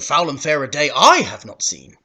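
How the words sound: The word 'I' carries strong stress. The speaker calls it wrong. "It could be a stressed syllable, but it would sound weird in this context"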